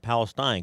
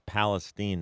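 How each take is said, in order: First: It is said the usual Holy Land way. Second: It is said the local Texas town way. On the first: It names the region in the Middle East. The speaker calls it wrong. "not Palestine, because I could be confused that we've got now a station over in the Holy Land" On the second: It names the town in Texas. The speaker calls it right. "it's important that it's Palestine"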